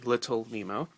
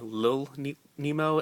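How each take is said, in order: First: The first word is said with both syllables. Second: The first word is shortened to one syllable. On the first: The speaker calls it right. "but it's actually Little Nemo" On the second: The speaker calls it wrong. "I'm used to saying Lil ne- Nemo as in Lil Abner"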